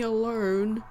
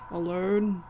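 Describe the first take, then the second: First: The word ends with a slight R sound. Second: The word ends without any R sound. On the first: "there's an R sound in that" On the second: "I said those more normally on purpose that time"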